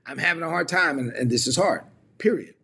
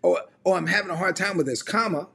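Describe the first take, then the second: First: Mock complaint closed off with a separate PERIOD; final, full stop. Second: Raised COMMA, as if more is coming; open-ended comma. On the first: Mentee closing the case on a hard time, final full stop. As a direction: end HARD firmly, then PERIOD as its own word. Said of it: "they were putting a period on it". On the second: Shown as a demonstration. Mentee leaving room for grace after a hard time, open-ended comma. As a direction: lift the line and hang on COMMA, higher. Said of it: "I put a comma there".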